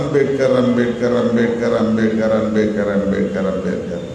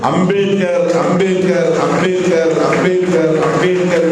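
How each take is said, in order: First: The name is repeated with a scornful, irritated tone. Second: The name is repeated with a proud, defiant tone. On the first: The speaker resents hearing the name so often. The speaker calls it wrong. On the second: The speakers honour the name and will keep repeating it. The speaker calls it right.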